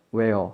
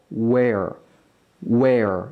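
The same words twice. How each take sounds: First: WHERE begun without rounded lips; careless w. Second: Slow WHERE starting from pushed-out oo lips; rounded-lip w. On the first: Teacher showing learners what not to do, WHERE with a weak w. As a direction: say WHERE plainly, w barely formed. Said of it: "그냥 where 하지 마시고". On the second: Teacher modelling for learners, lower, slow WHERE with a full w. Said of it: "우라는 입 모양으로부터 발음을 시작". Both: Shown as a demonstration.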